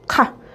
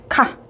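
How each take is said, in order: The two takes are said the same way.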